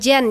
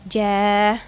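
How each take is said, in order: First: It ends with an n sound after the vowel. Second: It ends on a short vowel with no n. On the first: The speaker calls it wrong. "bukan jan" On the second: The speaker calls it right. "kita mau berhenti di sana jadi bacanya cuma satu harokatnya"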